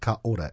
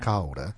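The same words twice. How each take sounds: First: The two middle vowels are said separately. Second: The two middle vowels run together smoothly. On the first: The speaker calls it wrong. "So it's not kaora" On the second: The speaker calls it right. "when you get two vowel sounds, you run them together"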